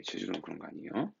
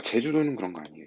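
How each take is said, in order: First: 아니에요 softer with a rising lilt; soft sing-song repeat; soft playful repeat. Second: 제주도는 stressed, firm and level; firm teacher's aside; firm correction. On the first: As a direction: tease it gently, rising on 아니에요. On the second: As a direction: state it flatly, 제주도는 up front. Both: Shown as a demonstration. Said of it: "참고로".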